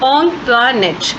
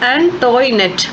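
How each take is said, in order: First: The name is said as On-twa-net. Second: The name is said as An-toy-net. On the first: The speaker calls it right. "The name ought to ബി pronounced" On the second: The speaker calls it wrong. "Most of them pronounced it as"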